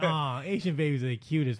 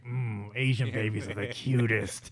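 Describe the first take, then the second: First: It sounds sweet and innocently affectionate. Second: It sounds creepy and suggestive.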